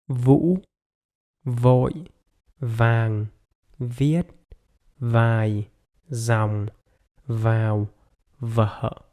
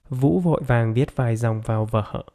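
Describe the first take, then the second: First: The sentence is spoken very slowly. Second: The sentence is spoken at normal speed.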